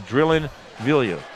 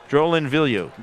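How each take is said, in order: First: The first name begins with a 'dr' sound. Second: The first name begins with a 'j' sound. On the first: The speaker calls it right. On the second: The speaker calls it wrong.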